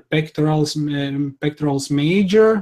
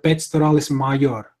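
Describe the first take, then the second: First: It is pronounced in an English-sounding way. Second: It is pronounced in a Latin-sounding way. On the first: "that would be kind of like a Englishified version" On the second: "that would be more like Latin"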